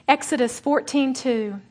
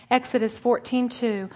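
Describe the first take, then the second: No difference in how they are said.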